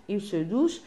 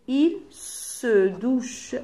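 First: Said in the usual way. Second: "Il se douche" very slow, word by word; slow dictation. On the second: Shown as a demonstration. Teacher fills in the rhyme with pupils, very slow dictation of "Il se douche". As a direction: stretch each word of "Il se douche" for writing.

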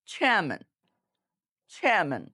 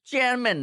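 First: চেয়ারম্যান as airy "chheh-man", falling, r silent; aspirated ch. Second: চেয়ারম্যান with hard চ and sounded r; unaspirated ch. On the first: Teacher models what we should say, চেয়ারম্যান with aspirated ch. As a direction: breathe out on the ch of চেয়ারম্যান, no r. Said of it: "আমরা কি বলবো?". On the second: Teacher practises once more, wrong চেয়ারম্যান with plain চ. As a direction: say চেয়ারম্যান without any puff, r kept. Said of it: "চেয়ারম্যান না". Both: Shown as a demonstration.

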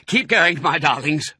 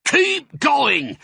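First: High, strained urging; effortful, raised-voice plea; panted. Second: Very high, loud holler; bellowed urging, pitched high; shouted. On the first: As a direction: pant out encouragement to the family while digging. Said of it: "panted Mister Fox". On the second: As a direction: shout orders across to the tractor drivers. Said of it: "the fat Boggis shouted". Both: A narrator's reading.

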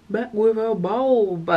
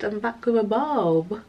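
First: BULB stretched long, slow and playful; drawn-out reveal. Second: Said in the usual way. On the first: Real, not acted. Showing viewers the new haircut, slow drawn-out BULB. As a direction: slowly relish the words, holding BULB.

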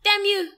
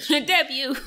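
First: High, loud slapstick curse; Stooges shout. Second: Laughing mock curse, louder; Stooges-style shout. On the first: Retold or imitated. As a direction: yell it like a cartoon villain. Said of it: "You said dab you". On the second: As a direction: shout it like a slapstick villain. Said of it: "I said damn you".

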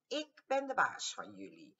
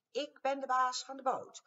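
First: Said in the usual way. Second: High, loud squeak with baas hit hard; a tiny boss shouting up at giants; squeaky bossy mouse. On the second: A narrator's reading. Mouse claiming the boat from the dinos, high and loud. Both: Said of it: "Al had hij een piepstemmetje".

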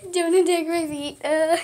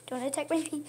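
First: Louder, higher yelp at a pet; exasperated scolding. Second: Mild scolding. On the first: Owner to cat attacking her feet, exasperated scolding. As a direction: raise your voice in real protest. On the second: Owner to cat at her feet, mild scolding. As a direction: tell the pet off quietly. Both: Real, not acted.

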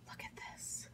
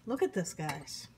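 First: Soft, breathy whisper; hushed whisper to the viewers. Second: Said in the usual way. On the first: Real, not acted. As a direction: lean in and whisper it. Whispering over the food.

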